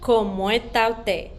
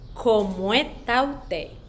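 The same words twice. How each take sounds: First: The phrase is said at a normal pace. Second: The phrase is said very slowly.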